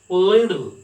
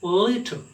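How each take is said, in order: First: The t is softened to a d sound. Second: The t is said as a clear t. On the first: "American people pronounce it as duh. They sound it as little" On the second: "Whereas British people sound it as little"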